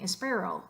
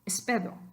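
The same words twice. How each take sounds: First: The middle consonant is an English-style r. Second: The middle consonant sounds like a dental d. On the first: It sounds like a foreigner speaking. "You definitely don't want to sound gringo like that" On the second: It is an acceptable stopgap while learning. "put a D where those R's are"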